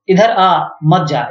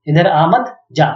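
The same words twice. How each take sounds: First: The pause comes after आ. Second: The pause comes after मत.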